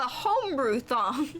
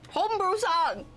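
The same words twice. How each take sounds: First: The s sound is lisped. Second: The s sound is clear. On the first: The speaker calls it wrong. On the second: The speaker calls it right.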